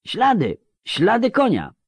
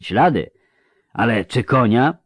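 First: Very high-pitched called-out announcement; shouting over wind. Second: Slightly raised, doubting question; sceptical questioning. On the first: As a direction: call the news across a gale. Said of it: "przekrzykując wichurę". (wołanie wysokim głosem przez wichurę) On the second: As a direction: query the claim, far less shrieked. Sceptical vampire questions the shouted claim. (powątpiewające pytanie) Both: A narrator's reading.

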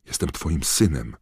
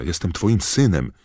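First: Pleading cry to a father; moderately raised, imploring voice; calling out. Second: High, loud plea to a father; raised, imploring shout; desperate calling. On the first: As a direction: call it out in appeal, not yet at full voice. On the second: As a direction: cry it out in full desperation. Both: A narrator's reading. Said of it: "wołał do Croucha".

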